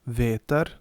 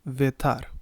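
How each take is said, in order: First: The stress is on the first syllable. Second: The stress is on the second syllable. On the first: The speaker calls it right. "the stress usually follows on the first syllable" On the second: The speaker calls it wrong.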